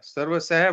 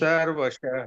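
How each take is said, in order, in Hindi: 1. आखिरी अक्षर साधारण s ध्वनि से शुरू होता है। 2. आखिरी अक्षर sh ध्वनि से शुरू होता है। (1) "ये सह नहीं है" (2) "ये श है"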